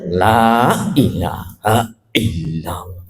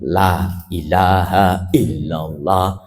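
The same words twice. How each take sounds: First: The first syllable is cut with a glottal catch. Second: Every sound and vowel length is clearly articulated. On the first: The speaker calls it wrong. "La-nya seolah-olah ada hamzahnya ini" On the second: The speaker calls it right. "hurufnya ada jelas, panjang pendeknya ada"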